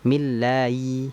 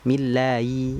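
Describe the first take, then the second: First: The h sound is blurred and barely heard. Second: The same.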